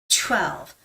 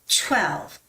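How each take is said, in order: Both takes have the same delivery.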